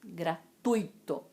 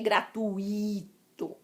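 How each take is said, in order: First: The stress falls on the u vowel. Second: The stress falls on the i vowel. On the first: The speaker calls it right. "é o u" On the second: The speaker calls it wrong. "não é gratuito. A sílaba tônica não é o i"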